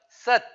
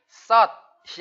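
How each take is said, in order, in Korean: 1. 이 모음은 입을 좁힌 상태로 발음합니다. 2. 이 모음은 입을 크게 벌리고 발음합니다. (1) "칠십 퍼센트 어금니 간격을 좁혀서" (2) "썩이 아니라 어가 아니라"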